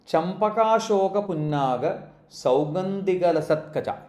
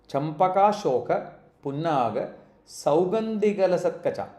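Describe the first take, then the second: No difference in how they are said.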